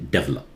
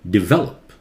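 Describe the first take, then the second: First: The stress falls on the first syllable. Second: The stress falls on the second syllable. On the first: The speaker calls it wrong. "please do not say develop" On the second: The speaker calls it right. "de, very short"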